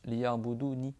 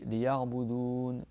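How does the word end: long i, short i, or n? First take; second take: short i; n. First: The word ends in a short i vowel. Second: The word ends on n with no vowel. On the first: "sans le ya de prolongation" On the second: "on s'arrête sur une voyelle muette"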